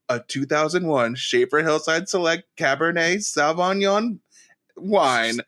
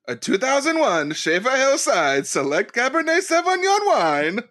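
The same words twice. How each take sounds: First: Put-on Borat-style accent on the wine name; a Borat accent naming the wine. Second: Wine name said again, Sauvignon pitched up high; proper French wine name. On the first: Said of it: "I said it like Borat". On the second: Shown as a demonstration. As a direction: say Cabernet Sauvignon the fancy way, rising. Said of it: "Do you wanna try that one more time?".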